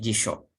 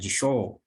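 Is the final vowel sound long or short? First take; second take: short; long. First: The final vowel is kept short. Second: The final vowel is held long. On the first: The speaker calls it right. "Sho-nya bunyi pendek ya" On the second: The speaker calls it wrong.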